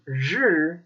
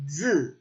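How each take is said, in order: First: "zhi" with a curled-back tongue, retroflex j; northern zhi. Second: "zi" with a flat dz, tongue relaxed; southern zi. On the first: Contrasting the northern "zhi" for learners, curled tongue. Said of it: "The Southern Chinese accent relaxes that tongue". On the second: Showing how the south relaxes "zhi" into a flat dz. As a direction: say "zi" with no curl, southern style. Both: Shown as a demonstration.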